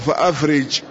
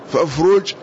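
First: A glottal stop; the r has an i vowel. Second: No glottal stop; the r has a u vowel. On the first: "وبهمزة قطع وكسر الراء" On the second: "بالوصل وضم الراء"

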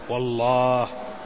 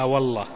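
First: The final vowel is held long. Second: The final vowel is cut short. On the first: The speaker calls it right. "والأولى أن ينطق به على أجمل الوجوه" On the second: The speaker calls it wrong. "بعض العامة يقول لا والله فيحذف الألف"

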